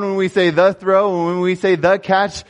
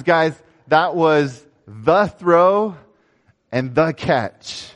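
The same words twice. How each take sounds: First: Louder, higher, say the throw and the catch rings out; rally the team behind the words; rousing coach. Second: Each word of the throw and the catch drawn out slowly; slow coach proclamation. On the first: Coach firing up the team, louder and higher. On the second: Coach naming the play to the team, slow and weighty. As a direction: lay out the throw and the catch like a title. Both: Retold or imitated. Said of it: "He says".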